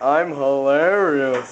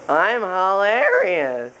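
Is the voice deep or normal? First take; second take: deep; normal. First: It is said in a deeper voice. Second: It is said in a normal voice.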